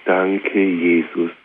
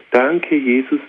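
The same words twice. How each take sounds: First: Slowed, hushed thanks to Jesus; a whispered-feeling word of thanks; slow soft prayer. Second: Said in the usual way. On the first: Shown as a demonstration. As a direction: breathe it out as a quiet prayer. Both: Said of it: "ein Wort".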